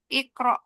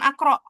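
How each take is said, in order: First: The word begins with an i vowel. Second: The word begins with an a vowel. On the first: The speaker calls it right. "Ikro, bukan akro" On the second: The speaker calls it wrong. "bukan akro"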